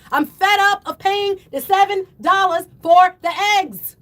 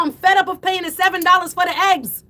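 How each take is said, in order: First: Fed up, hammered out word by word; emphatic yelling. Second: Fed-up outburst in one run; raised, exasperated voice at normal pace; worked-up yelling. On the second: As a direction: yell the whole complaint straight through. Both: Real, not acted. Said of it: "I gotta stop yelling".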